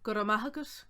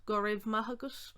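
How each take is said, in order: First: "raibh" said as a short "ruh"; "raibh" reduced, without a v sound; common pronunciation. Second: "raibh" said as "rev"; "go raibh" as "guh rev"; alternative pronunciation. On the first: First of two pronunciations. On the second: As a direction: sound the v at the end of "raibh". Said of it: "you might hear as well". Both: Shown as a demonstration.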